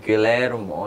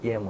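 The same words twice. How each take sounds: First: The double L is said as an L sound. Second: The double L is said as a Y sound. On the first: The speaker calls it wrong. "I kept pronouncing Guillermo del Toro's no- name like Guillermo" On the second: The speaker calls it right. "oh, dude, it's Guillermo"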